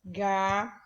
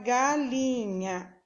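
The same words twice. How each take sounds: First: "Galinha" in three isolated syllables; silabado. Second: Said in the usual way. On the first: Shown as a demonstration. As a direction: count out "Galinha" as ga, li, nha with long pauses. ("Galinha" sílaba por sílaba, com pausas longas) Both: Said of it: "Quantas vezes você abre a boca".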